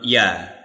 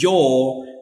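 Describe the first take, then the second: First: The word is said reduced with a weak vowel. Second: The word is said fully with a clear vowel. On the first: "and this one we pronounce ya" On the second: "we pronounce the strong form for this word"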